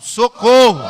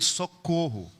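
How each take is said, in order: First: The word is said more loudly. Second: The word is said at normal loudness.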